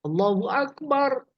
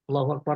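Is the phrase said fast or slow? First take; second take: slow; fast. First: It is said slowly, word by word. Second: It is said quickly, words run together. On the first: This is the style for the call to prayer. "Irsal artinya diputus-putus per kata" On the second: This is the style for the call to stand. "Tuh kan cepat itu"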